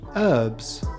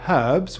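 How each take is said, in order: First: The H at the start is silent. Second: The H at the start is sounded. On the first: "whereas Americans prefer herbs" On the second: "British cooks like the H in herbs"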